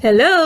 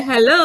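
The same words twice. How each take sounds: First: Said in the usual way. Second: Fond "hello", lifting at the end; affectionate hello. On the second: Shown as a demonstration. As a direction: greet someone you love. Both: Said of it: "அன்பான ஃபீலிங்கோட".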